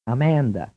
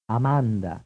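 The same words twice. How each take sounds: First: Amanda with a flat English "a" in the stressed middle; English pronunciation. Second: Amanda with all three vowels an open "ah"; Italian Amanda, dental d, stressed middle vowel held; Italian pronunciation. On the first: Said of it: "first pronounced in English". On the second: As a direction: say Amanda the Italian way, ah-MAHN-dah. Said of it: "then pronounced in Italian". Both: Shown as a demonstration.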